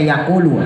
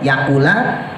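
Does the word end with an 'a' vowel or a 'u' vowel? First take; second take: u vowel; a vowel. First: The word ends with a 'u' vowel. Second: The word ends with an 'a' vowel. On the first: "warrofi dan rofa boleh dibaca yakulu" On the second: "bin nasbi bisa juga dibaca nasob ya"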